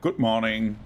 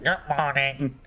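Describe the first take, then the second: First: It is said in a normal voice. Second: It is said with a pinched, nasal voice.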